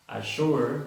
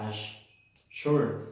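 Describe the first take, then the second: First: "Assure" as one joined word, loud and clear; firm correct model of "Assure"; single sh sound. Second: "ash-, sure" broken in two with sh on both halves; mispronounced assure, double S sounded twice; wrong doubled sh. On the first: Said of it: "se pronuncia solo assure". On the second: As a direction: pause inside the word, "ash... sure", as a mistake. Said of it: "no se pronuncia". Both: Shown as a demonstration.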